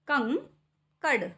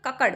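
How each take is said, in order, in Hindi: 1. पहला अक्षर एक अनुनासिक ध्वनि से खत्म होता है। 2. पहले अक्षर में कोई अनुनासिक ध्वनि नहीं है। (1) "अंक की बिंदी लगा देते" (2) "अंक की बिंदी को हटा देते हैं"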